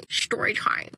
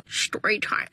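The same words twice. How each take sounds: First: Whispered story time. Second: Story time with the pitch dropped lower. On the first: Recording the story intro, whispered. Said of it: "it feels hella weird saying that". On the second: Trying one more intro take, lower. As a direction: drop the voice low for story time. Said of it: "Oh, not the laugh". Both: Shown as a demonstration.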